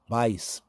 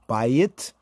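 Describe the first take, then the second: First: The word ends with an s sound. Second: The word ends with a t sound. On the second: "That's the Afro-Shemitic bayit"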